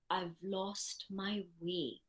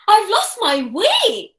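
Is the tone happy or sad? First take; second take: sad; happy. First: It is said in a sad tone. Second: It is said in a happy tone.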